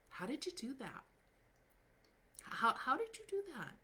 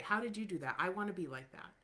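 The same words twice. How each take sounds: First: High-pitched, astonished how did you do that; amazed high question. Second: Said in the usual way. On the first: Retold or imitated. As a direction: play an awestruck admirer who can't believe it. People amazed by the results.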